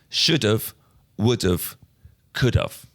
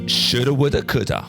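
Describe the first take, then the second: First: Each 'have' is said fully and more slowly. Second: Each 'have' is reduced to a short 'a' sound.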